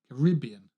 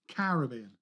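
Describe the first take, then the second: First: The stress is on the second syllable. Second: The stress is on the first syllable. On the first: "So the emphasis on rib" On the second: "rather than ca"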